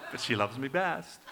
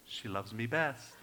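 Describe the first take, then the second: First: Playful boast with a tap on the shoulder; teasing his wife that he's the favourite; teasing brag. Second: Put-on a soft, quiet boast to the baby; softly gloating to the grandbaby; hushed brag. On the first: Retold or imitated. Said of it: "I tap her on the shoulder, like". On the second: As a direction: murmur the brag like a secret. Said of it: "It's a brag moment".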